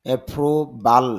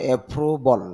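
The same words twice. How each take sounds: First: অ্যাপ্রুভাল ending in a clear "bal"; অ্যাপ্রুভাল as "e-proo-bal"; common mispronunciation. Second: অ্যাপ্রুভাল ending in "bol", no "a" after the b; no "i" or "e" sound after the b in অ্যাপ্রুভাল; corrected pronunciation. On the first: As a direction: say অ্যাপ্রুভাল with an open "a" in the last syllable. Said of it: "এরকম বলি". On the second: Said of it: "ব সাউন্ডের পরে". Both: Shown as a demonstration.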